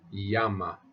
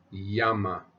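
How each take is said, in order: Both takes have the same delivery.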